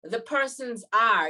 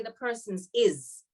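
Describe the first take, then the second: First: Said in the usual way. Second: "The persons is." said slowly as the wrong form; slow "The persons is." marked as wrong; wrong grammar demo. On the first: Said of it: "you would have to say". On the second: Shown as a demonstration. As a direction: show "is" as the mistake. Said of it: "You can't say".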